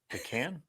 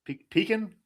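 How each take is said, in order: First: Pecan as "puh-CAN"; soft, questioning Pecan, ending like tin can; pronunciation variant. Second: Pecan as "PEE-kin"; long "ee" in pecan, weak second syllable, higher; pronunciation variant. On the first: Co-host testing out the word, Pecan said "puh-CAN". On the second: Co-host unsure of the word, pecan said "PEE-kin". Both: Shown as a demonstration. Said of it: "Is it like pecan and pecan?".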